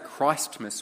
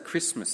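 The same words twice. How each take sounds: First: The first syllable sounds like Christ. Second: The first syllable sounds like Chris. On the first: The name of Christ is kept in the word. "We don't say Christmas" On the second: The name of Christ is dropped from the word. "as though it's the holiday for the many Chrises out there"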